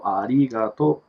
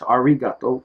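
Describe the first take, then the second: First: The middle consonant sounds like an L. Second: The middle consonant is an English R sound. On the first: The speaker calls it right. "there is no R's. It's pronounced as L" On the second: The speaker calls it wrong. "which we would say in English"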